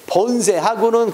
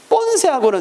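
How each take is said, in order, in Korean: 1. 첫 자음은 예사소리이고 느슨해요. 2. 첫 자음은 된소리이고 세게 나요. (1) "본세하고는 그래야 되는데" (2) "가끔 본세하고는 이런 말 쓴단 말이야"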